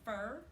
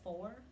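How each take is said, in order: First: The vowel sounds like the one in 'fur'. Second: The vowel sounds like the one in 'for'. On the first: The speaker calls it wrong. "saying fur instead of for" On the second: The speaker calls it right. "instead of for"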